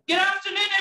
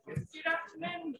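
First: It is shouted loudly and drawn out. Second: It is said at normal speaking volume.

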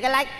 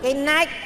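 First: Said quickly, the word begins with an l sound. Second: Said slowly, the word begins with an n sound. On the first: The speaker calls it wrong. "nói nhanh cái lách đấy" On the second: The speaker calls it right. "nói chậm tôi nói được"

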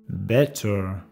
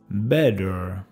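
First: The middle consonant is a clear T sound. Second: The middle consonant sounds like a soft D.

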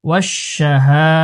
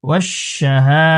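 No difference in how they are said.

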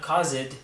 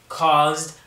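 First: The ending is said as an extra syllable. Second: The word is said as one syllable. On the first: The speaker calls it wrong. "not caused" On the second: The speaker calls it right. "We're keeping it one syllable"

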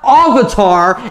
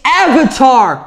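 First: The word has altered, fancier-sounding vowel sounds. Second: The word has its plain, familiar vowel sounds. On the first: The speaker calls it wrong. "not Avatar... a little twist on the way you pronounce it" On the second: The speaker calls it right. "It's Avatar"

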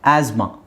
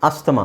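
First: No t sound; s goes straight into m. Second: A t sound is heard after the s. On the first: The speaker calls it right. "ಟಿ silent ಆಗುತ್ತೆ" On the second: The speaker calls it wrong. "Actually ಅದು ಅಸ್ತಮಾ ಅಲ್ಲ"

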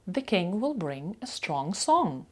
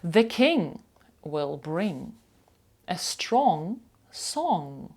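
First: The sentence is said at a faster pace. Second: The sentence is said at a slower pace.

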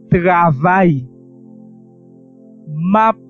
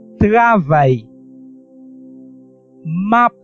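Both takes have the same delivery.

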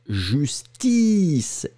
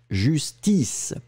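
First: The word is said slowly and drawn out. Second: The word is said compactly and quickly. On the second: "on compacte"

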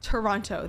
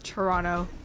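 First: The second T is clearly pronounced. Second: The second T is dropped. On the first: "enunciating correctly" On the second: "Nobody really says the second T. Everybody just says"

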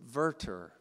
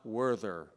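First: The word begins with a V sound. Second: The word begins with a W sound. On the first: The speaker calls it right. "And it's Werther" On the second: The speaker calls it wrong. "not Werther"

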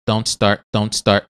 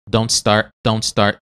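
The two takes are said the same way.

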